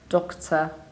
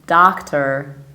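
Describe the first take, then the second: First: It is said in a British accent. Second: It is said in an American accent. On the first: "In the British accent we say do with a short O, and we reduce the ending" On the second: "And in the American accent we say medical doctor"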